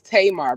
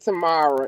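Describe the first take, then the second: First: The name is said with two syllables. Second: The name is said with three syllables. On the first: The speaker calls it right. "It's Tamar Braxton" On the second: The speaker calls it wrong. "not Tamara"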